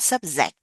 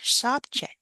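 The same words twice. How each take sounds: First: The middle consonant is not a j sound. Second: The middle consonant is a clear j sound. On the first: The speaker calls it wrong. "not subject" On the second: The speaker calls it right. "Subject, j j j j"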